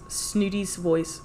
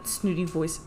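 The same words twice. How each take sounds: First: Snooty's said slowly with the 's clearly sounded; slow correction, leaning on Snooty's; correcting "Snooty voice" to a slow, deliberate "Snooty's voice"; stress on Snooty's. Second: Said in the usual way. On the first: Shown as a demonstration. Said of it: "Not Snooty voice". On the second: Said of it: "It should be Snooty voice's say".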